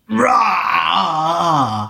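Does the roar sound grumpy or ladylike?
grumpy. The roar sounds gruff and grumpy.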